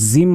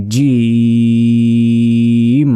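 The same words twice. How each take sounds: First: জিম said short as "zim"; wrong z sound. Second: জিম as "jeeeem", hard j and long level vowel; correct j, drawn out. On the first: Teacher showing the common mistake, z for j. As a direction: buzz the first sound of জিম like z. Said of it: "জিম বলা যাবে না". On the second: Teacher giving the correct letter, long j sound. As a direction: start জিম with j and hold the ee for seconds. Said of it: "বলতে হবে". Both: Shown as a demonstration.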